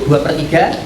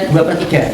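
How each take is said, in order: No difference in how they are said.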